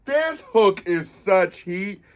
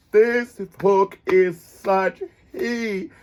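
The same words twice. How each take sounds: First: Said in the usual way. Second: "This hook is such heat" stretched very slow, savoring each word; drawn out. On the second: Shown as a demonstration. Savoring the hook for viewers, very slowly. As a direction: draw it out for emphasis.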